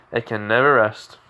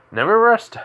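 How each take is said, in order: First: Said in the usual way. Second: Higher and louder, snapped out; sharp exclamation. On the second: Acted. Radio demon sensing danger, cries out sharply. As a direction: bark it like a sudden alarm.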